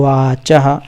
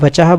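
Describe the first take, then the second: First: The first vowel is long. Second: The first vowel is short. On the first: The speaker calls it right. "वाचः ऐसा ही है" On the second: The speaker calls it wrong. "वचः बोलेंगे तो वो गलत हो जाएगा"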